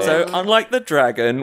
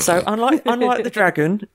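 First: It is said in the speaker's ordinary voice. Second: It is said in a put-on character voice. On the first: "I'm saying it as [name]" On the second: "Say it as Orange. character voice"

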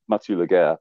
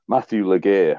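First: The first name has a French pronunciation. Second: The first name has an English pronunciation. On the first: The speaker calls it right. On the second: The speaker calls it wrong.

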